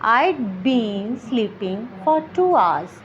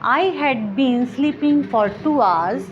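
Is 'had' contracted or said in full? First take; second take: contracted; full. First: Had is shortened to a d sound. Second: The word had is said in full.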